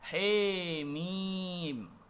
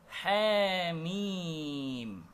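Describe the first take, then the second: First: The vowel after h is a full e. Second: The vowel after h is between a and e. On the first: "dengan bi imalatin kubra, dengan membaca Hamim menjadi Hemim" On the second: "dibaca dengan bi imalatin sughra. Lafaz Hamim dibaca menjadi Hamim"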